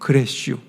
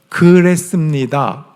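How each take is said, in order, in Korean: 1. 충청도 사투리로, 줄여서 짧게 말한 거예요. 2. 표준어로, 끝까지 풀어서 말한 거예요. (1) "충청도 사투리가 축약돼 있어요. 되게 짧아요" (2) "이게 아니고"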